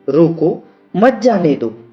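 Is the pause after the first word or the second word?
first word. The pause comes after the first word.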